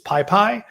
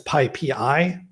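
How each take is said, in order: First: The name ends with the sound 'pie'. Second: The name ends with the sounds 'pee-eye'. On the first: The speaker calls it wrong. "what many folks mistakenly call it" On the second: The speaker calls it right. "that's PyPI, P Y P I"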